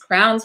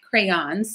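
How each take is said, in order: First: The word is squeezed into one syllable. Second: The word is said with two syllables. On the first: The speaker calls it wrong. "We say crowns" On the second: The speaker calls it right. "But the word is crayon"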